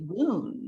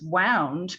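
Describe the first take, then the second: First: The vowel sounds like the one in 'spooned'. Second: The vowel sounds like the one in 'found'. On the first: It means an injury. The speaker calls it wrong. "my brain wanted to say wound" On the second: It means wrapped around. The speaker calls it right. "is what directed me to pronounce it as wound"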